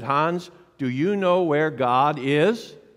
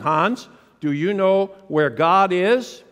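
First: The question is asked in a calm, plain way. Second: The question is asked with more force and push.

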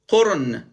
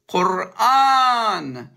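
First: The second vowel is short. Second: The second vowel is long. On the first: The word is spelled without the long alif. The speaker calls it wrong. "if you remove the vowels, it says Qurun" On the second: The word is spelled with the long alif. The speaker calls it right. "Allah writes it correct"

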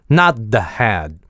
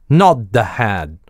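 No difference in how they are said.

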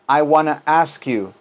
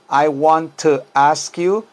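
First: The words blend together into a reduced form. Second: Each word is said fully and separately. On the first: "pero se convierte en I wanna ask you" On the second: "Vean cómo es I want to ask you"

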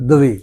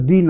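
First: A w-like sound follows the d before the vowel. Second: The d is followed directly by the vowel. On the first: The speaker calls it right. "দ অন্তস্থ ওয়া, তারপর দুভিকার অর্থাৎ দুবি" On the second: The speaker calls it wrong. "আসলে সংস্কৃতে কিন্তু উচ্চারণটা দি না"

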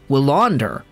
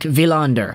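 First: The name begins with a W sound. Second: The name begins with a hard, quick V sound.

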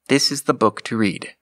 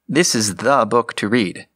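First: No single word carries extra stress. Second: The word "the" carries strong stress. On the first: It points out which book is meant. "without stress on any individual word" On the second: The book stands out above all others. "with stress on the"

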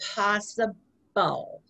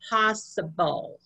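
First: The word is said slowly. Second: The word is said fast.

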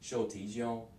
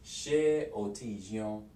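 First: The vowel after sh is dropped, faster. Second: The vowel after sh is kept, slower.

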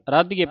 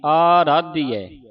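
First: The first vowel is said short. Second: The first vowel is said long. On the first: The speaker calls it wrong. "ਐਡੇ ਨੂੰ ਕੰਨਾ ਕੱਟ ਦਿੰਦੀ ਹੈ" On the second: The speaker calls it right. "ਐਡੇ ਨੂੰ ਕੰਨਾ ਲੱਗਾ ਹੈ। ... ਇਸ ਤਰ੍ਹਾਂ ਉਚਾਰਨ ਕਰਨਾ"

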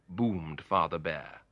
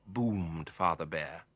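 The two takes are said the same way.

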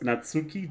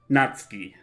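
First: The u after the ts is fully voiced. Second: The u after the ts is nearly silent. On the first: The speaker calls it wrong. "That's not it" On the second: The speaker calls it right. "you almost swallow it"

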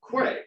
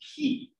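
First: It is said like 'kway', with a w sound. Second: It is said like 'key', with no w sound. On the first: The speaker calls it wrong. "I always pronounced it Quay, which is incorrect" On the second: The speaker calls it right. "The correct pronunciation is key"

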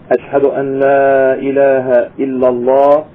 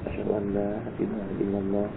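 First: It is said in a louder voice. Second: It is said in a low voice.

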